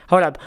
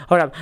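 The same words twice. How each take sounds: No difference in how they are said.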